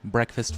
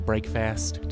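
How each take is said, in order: First: The first syllable sounds like 'breck'. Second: The first syllable sounds like 'brake'.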